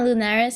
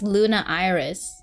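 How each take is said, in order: First: The name is run together as one word. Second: The name is said as Luna then Iris. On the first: The speaker calls it wrong. "Not Lunaris" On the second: The speaker calls it right. "I think it's Luna Iris"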